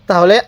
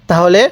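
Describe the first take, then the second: No difference in how they are said.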